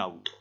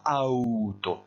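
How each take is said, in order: First: The word is pronounced in a normal, natural way. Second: The word is pronounced in an exaggerated, overdone way. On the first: "Normalement on dit un auto" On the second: "J'ai un petit peu exagéré la prononciation en faisant auto"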